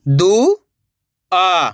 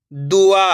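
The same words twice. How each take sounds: First: Each syllable sounded separately, pauses between; letter by letter. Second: Said in the usual way. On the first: Shown as a demonstration. Teacher sounds out a word for beginners, letter by letter. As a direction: break the word into its letters, slowly. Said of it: "एक ही अक्षर का उच्चारण". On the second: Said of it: "तो मिलके बन जाएगा".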